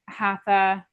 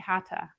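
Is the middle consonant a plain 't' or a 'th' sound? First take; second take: th; t. First: The middle consonant is a 'th' sound. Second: The middle consonant is a plain 't' sound. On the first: The speaker calls it wrong. "I said that wrong" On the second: The speaker calls it right. "It's actually hatha"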